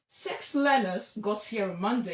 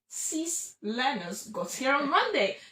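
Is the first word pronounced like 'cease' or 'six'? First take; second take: six; cease. First: The first word has a short vowel, like six. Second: The first word has a long vowel, like cease. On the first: The number six is meant. The speaker calls it right. "you say" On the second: It sounds like saying stop. The speaker calls it wrong. "you're saying stop learners got here on Monday"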